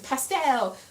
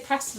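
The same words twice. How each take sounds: First: It is said the American way. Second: It is said the British way.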